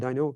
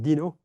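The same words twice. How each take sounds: First: The name is said with an American English pronunciation. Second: The name is said with a French pronunciation. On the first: This is how people in America say it. "on this side of the pond, they say Dino" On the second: This is how its French makers say it. "made by French people at Fair Paris, so they pronounce it Dino"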